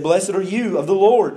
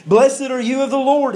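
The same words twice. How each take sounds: First: Said in the usual way. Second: High, eager exclamation; acting out an excited Saul; excited greeting. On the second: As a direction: greet him with excitement, pitch lifted well up. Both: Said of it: "He was excited when Samuel came".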